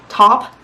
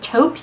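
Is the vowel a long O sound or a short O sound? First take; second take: short O; long O. First: The vowel is a short O sound. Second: The vowel is a long O sound. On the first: The speaker calls it wrong. "You don't say top" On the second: The speaker calls it right. "the A U sound in French is that like O sound"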